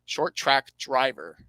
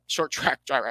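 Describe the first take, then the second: First: Slow, deliberate redo of the phrase. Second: Hurried, words run together; too fast. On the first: Podcaster correcting his rushed words, slowed right down. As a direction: space out each word carefully. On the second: Podcaster tripping through a driver's credentials, too fast. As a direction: rush through it at a quick clip. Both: Real, not acted. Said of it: "I'm speaking too fast".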